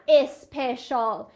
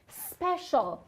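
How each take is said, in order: First: The word begins with an added vowel before s. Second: The word begins directly with the s sound. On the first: The speaker calls it wrong. "اینجا هم نمیگم اسپشال" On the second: The speaker calls it right. "صدا رو میگم سپشال"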